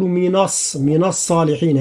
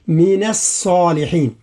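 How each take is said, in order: First: "من الصالحين" with the ن of من made heavy and dark; the mistaken emphatic نون in "من"; wrong heavy ن. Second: "من الصالحين" slowly, a light ن in من and only the ص heavy. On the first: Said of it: "هكذا، لا، هذا لحن وهذا خطأ". ("من الصالحين" بتفخيم النون خطأ) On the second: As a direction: keep "من" light and thicken only the ص. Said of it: "التفخيم هو يتعلق بالصاد فقط". ("من الصالحين" بترقيق النون وتفخيم الصاد) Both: Shown as a demonstration.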